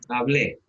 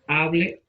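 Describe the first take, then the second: First: The stress is on the last syllable. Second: The stress is on the first syllable. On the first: "si yo dijera hablé como palabra aguda" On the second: "Hable es llana"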